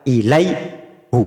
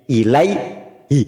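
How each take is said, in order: First: The word ends with a u vowel. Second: The word ends with an i vowel. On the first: The speaker calls it wrong. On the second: The speaker calls it right.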